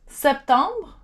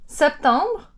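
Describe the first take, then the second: The two takes are said the same way.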